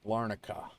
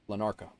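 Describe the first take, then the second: First: The R sound comes before the N. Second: The R sound comes after the N. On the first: The speaker calls it right. "The R is before the N" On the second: The speaker calls it wrong. "I don't ever know if I say that right or not"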